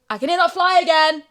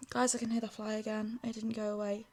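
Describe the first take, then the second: First: High, loud alarmed cry; alarmed shout. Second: Softer, resigned tone; quiet. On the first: Alarmed at fly. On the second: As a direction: say it quietly, deflated. Repeats it quietly. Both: Real, not acted.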